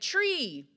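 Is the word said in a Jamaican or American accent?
Jamaican. It is said in a Jamaican accent.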